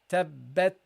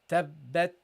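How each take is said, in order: Both takes have the same delivery.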